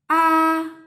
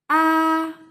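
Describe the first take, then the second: First: The pitch stays high and level. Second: The same.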